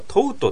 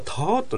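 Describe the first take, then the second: First: The vowel is a closed, rounded 'oh' sound. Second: The vowel is an open, rough 'aw' sound. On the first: The speaker calls it wrong. "ティーチの過去形はトウトって覚えたんだけど" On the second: The speaker calls it right. "オーなの。柄の悪いオーなの。"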